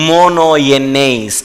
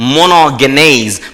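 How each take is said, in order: First: The g sound is dropped in the middle. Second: The g sound is pronounced in the middle.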